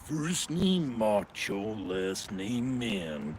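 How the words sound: It is said in a deep, low register. The speaker calls it right. "you can go to a much lower register"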